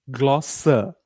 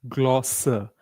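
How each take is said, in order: The two takes are said the same way.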